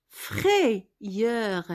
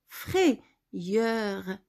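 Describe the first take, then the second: The two takes are said the same way.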